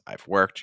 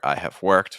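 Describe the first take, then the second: First: The word have is contracted onto I. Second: The word have is said in full. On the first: "versus I've worked" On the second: "compare I have worked"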